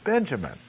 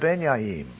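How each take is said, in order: First: The name begins with a J sound. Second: The name begins with a Y sound. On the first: This is how it is said today. "who is Benjamin" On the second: This is how it was said originally. "They would speak of Benyamin"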